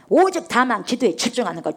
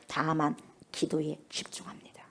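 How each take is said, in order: First: Said in the usual way. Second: Slow, hushed whisper on 다만 기도에 집중합니다; whispered take of 다만 기도에 집중합니다. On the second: Shown as a demonstration. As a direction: breathe it, intimate and slow.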